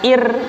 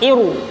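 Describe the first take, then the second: First: The r is thin, with lips spread. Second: The r is thick, with lips rounded. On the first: The speaker calls it wrong. "bukan ir" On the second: The speaker calls it right. "tapi iru, mecucu"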